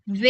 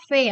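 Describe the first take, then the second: First: "V" as a voiced, buzzing "vee"; English letter "V", not F; heavy English V. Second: "V" softened to "fé"; letter "V" said the Indonesian way, with an F sound. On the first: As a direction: press into a heavy "V" sound. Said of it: "V itu dia harus berat". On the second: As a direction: say "V" as "feh". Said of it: "dalam bahasa Indonesia kan bacanya V". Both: Shown as a demonstration.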